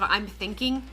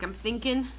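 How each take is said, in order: First: The last word ends with a full 'ing' sound. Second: The last word is shortened, dropping the final 'g'. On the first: "instead of" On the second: "we'll shorten things that don't really need to be shortened"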